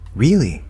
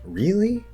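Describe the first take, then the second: First: The pitch goes up, then falls at the end. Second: The pitch rises high and sharp at the end. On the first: It is a surprised exclamation, not a question. "For comparison" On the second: It is a surprised real question. "an even higher question. It's a sharper question"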